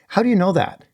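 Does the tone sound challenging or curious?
curious. The tone is open and curious. The speaker genuinely wants to understand. The speaker calls it right.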